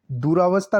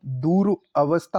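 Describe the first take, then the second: First: दुरावस्था run together with long raa; mispronounced compound. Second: Said in the usual way. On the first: Shown as a demonstration. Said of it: "दुरावस्था नहीं होता". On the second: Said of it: "दूर अवस्था होता है".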